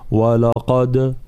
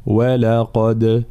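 First: "ولقد" with thick, heavy wa and la; the wrong way, with the whole word made heavy; wrong heavy waw. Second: "ولقد" with thin wa and la and a heavy ق; light at the start, heavy on the qaf; correct walaqad. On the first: Teacher showing students the wrong heavy opening of the word. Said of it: "فلا نقول". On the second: Teacher showing students the correct light-then-heavy word. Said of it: "هكذا". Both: Shown as a demonstration.

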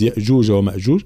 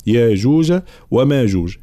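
First: "يأجوج ومأجوج" with two glottal stops; short "يأ" and "مأ" in "يأجوج ومأجوج", stopped on hamza. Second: "ياجوج وماجوج" with long "yaa" and "maa"; madd without hamza. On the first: Teacher showing Hafs's reading, "يأجوج ومأجوج" with hamza. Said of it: "يقرأها بالهمز". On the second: Teacher showing our reading, "ياجوج وماجوج" with madd. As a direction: stretch both first syllables of "ياجوج وماجوج". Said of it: "نقرأها بالمد هنا". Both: Shown as a demonstration.

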